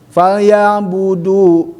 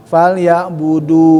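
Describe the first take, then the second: First: Falyabudu with heavy stress on du; wrong stress. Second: Falyabudu with the du eased off; lighter stress. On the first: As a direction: press hard on the du of falyabudu. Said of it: "Jangan falyabudu". (falyabudu dengan tekanan berat) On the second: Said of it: "agak sedikit dikurangin". (falyabudu dengan tekanan dikurangi) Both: Shown as a demonstration.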